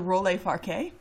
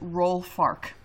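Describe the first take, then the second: First: The name is read with French final vowels. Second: The name is read as plain English words. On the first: The speaker calls it right. "I am imagining little accent aigus over both of the E's in this" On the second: The speaker calls it wrong. "It looks like it is Roll Fark, which is not appetizing"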